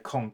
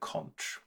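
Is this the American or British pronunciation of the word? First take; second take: American; British. First: It uses the variant said to be American. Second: It uses the variant said to be British. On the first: "an American is more likely to say conch" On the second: "a British person more likely to say conch"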